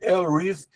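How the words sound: The name has an English pronunciation. The speaker calls it right. "a pronúncia em inglês é"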